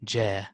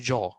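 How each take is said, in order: First: The letter is said light and thin. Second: The letter is said heavy and full. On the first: The speaker calls it right. "Ja is simplified" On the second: The speaker calls it wrong. "Don't say jaw"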